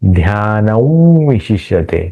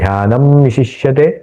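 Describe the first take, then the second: First: The nasal is a rounded, nasalised w-like sound. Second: The nasal is a clear m sound. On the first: "ओठों का चंचू बना करके ऊ ऐसा उच्चारण करेंगे" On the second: "ध्यानम शिष्यते बोल सकते हैं"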